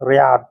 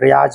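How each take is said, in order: First: The word ends with a d sound. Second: The word ends with a z sound. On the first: The speaker calls it right. "रियाद को रियाद ही बोला जाता है" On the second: The speaker calls it wrong. "रियाज नहीं बोला जाता है"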